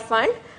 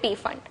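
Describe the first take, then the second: First: The word starts without a P sound. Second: The word starts with a clear P sound. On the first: The speaker calls it right. "again P is silent here, it's called Pfund" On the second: The speaker calls it wrong. "we used to call it P-Fund. That's not the correct way"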